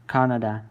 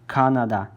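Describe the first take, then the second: Both takes have the same delivery.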